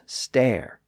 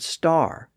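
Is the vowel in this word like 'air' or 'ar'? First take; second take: air; ar. First: The vowel sounds like 'air'. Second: The vowel sounds like 'ar'. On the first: This is the older pronunciation. "previously pronounced stare" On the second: This is the later pronunciation. "the words that kept the newer R sound"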